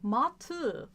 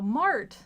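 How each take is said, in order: First: The word has no R and ends in a vowel. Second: The word is said with an R sound. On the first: The speaker calls it right. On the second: The speaker calls it wrong. "if you can't pronounce the R"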